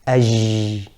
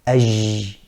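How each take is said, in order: Both takes have the same delivery.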